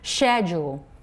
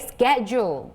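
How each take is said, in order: First: It is said in a British accent. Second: It is said in an American accent. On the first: "The British English version should be schedule" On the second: "but American one is just what we say"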